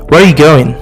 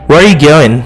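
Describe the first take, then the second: First: The word are is dropped entirely. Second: The same.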